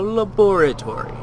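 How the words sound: It is said with a British pronunciation. It is said to sound pretentious. "I'm not British, I'm just saying that to be a prick"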